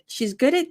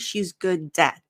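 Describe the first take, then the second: First: The D is said lightly, linking into the vowel. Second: The D is said with a hard, strong release. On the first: The speaker calls it right. "It's very light" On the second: The speaker calls it wrong. "I'm not doing a very hard D. So I'm not saying"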